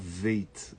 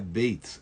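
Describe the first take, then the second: First: It begins with a V sound. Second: It begins with a B sound. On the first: The letter has no dot inside it. "Mas sem pontinho ela vira veit. Ela dá para ler com a letra V" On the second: The letter has a dot inside it. "um pontinho dentro da segunda letra é beit, é B"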